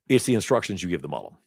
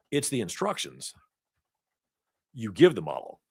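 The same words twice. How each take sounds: First: Fast, rattled off; quick recap. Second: Long pauses between phrases; slow and deliberate. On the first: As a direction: run through it quickly as a summary. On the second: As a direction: spell it out slowly, weighing each chunk. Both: Shown as a demonstration. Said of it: "I would say".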